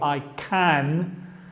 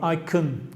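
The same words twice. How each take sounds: First: The vowel in 'can' is full and clear. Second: The vowel in 'can' is reduced, almost gone. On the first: The speaker calls it wrong. "no digo I can" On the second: The speaker calls it right. "Muy reducido, casi no tiene sonido vocal"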